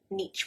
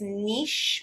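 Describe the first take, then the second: First: The word ends with a ch sound. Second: The word ends with a sh sound. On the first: The speaker calls it wrong. "with a ch sound. It's not" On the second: The speaker calls it right. "with a sh at the end"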